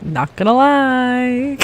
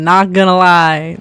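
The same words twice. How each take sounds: First: Slow British accent, pitched higher; slow posh-British delivery of Not gonna lie. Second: Said in the usual way. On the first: Shown as a demonstration. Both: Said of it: "I have a pretty good accent".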